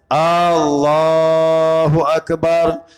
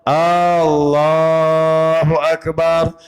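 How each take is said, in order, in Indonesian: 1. Vokal pertama pada Allah panjang. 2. Vokal pertama pada Allah panjang.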